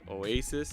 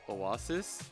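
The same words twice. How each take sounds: First: It is said with a plain English pronunciation. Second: It is said with a Japanese katakana-style pronunciation. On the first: "they phonetically say Oasis" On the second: "as like Oasis"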